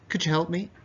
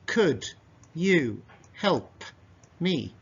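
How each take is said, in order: First: The phrase is said at a normal speed. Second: The phrase is said slowly. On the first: "But natural pace"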